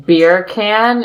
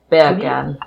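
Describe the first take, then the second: First: Said in the usual way. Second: BEER CAN said like "bacon" in Jamaican; put-on Jamaican, "beer can" squeezed toward "bacon"; Jamaican accent. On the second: Shown as a demonstration. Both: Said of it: "in a Jamaican accent".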